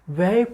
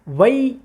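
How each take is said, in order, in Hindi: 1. स्वर एक सपाट 'ai' ध्वनि है। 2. स्वर एक स्पष्ट 'ee' ग्लाइड पर खत्म होता है। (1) "वै वै पढ़ना बिल्कुल गलत है" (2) "यहाँ पे हमने या पढ़नी है"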